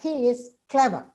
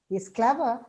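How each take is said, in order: First: The pitch falls at the end. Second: The pitch falls and then rises. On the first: It is a plain statement. "With a falling means it's a statement" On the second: Something negative is implied but left unsaid. "with a fall rise, you understand it"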